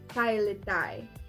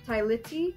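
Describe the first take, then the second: First: The last syllable sounds like 'tie'. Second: The last syllable sounds like 'tee'. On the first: The speaker calls it right. "it is Tailitai" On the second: The speaker calls it wrong. "It is not Tailiti"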